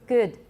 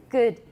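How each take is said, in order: No difference in how they are said.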